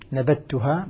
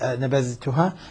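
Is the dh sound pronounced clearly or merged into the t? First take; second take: merged; clear. First: The dh sound merges fully into the t. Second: The dh sound is pronounced clearly before t. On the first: This is how some reciters read it. "نبتها بدل نبذتها" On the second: This is how the other reciters read it. "بإظهار الذال"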